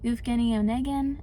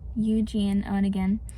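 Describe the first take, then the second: First: The first name is said as Evgeny. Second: The first name is said as Eugene. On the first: "there's two different ways to pronounce this" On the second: "and then"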